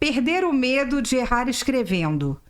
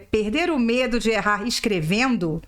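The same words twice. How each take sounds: First: The voice falls at the end like a statement. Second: The voice rises at the end like a question. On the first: It is stated as a fact. The speaker calls it wrong. "Mas acho que a entonação não é essa" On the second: It is asked as an open question. The speaker calls it right. "eu acho que é mais uma pergunta"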